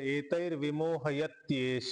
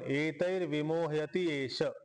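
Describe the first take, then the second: First: The last two words are joined, said faster. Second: The last two words are said separately. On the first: "थोडस speed मध्ये म्हणलं तर" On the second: "वेगळे वेगळे म्हणा"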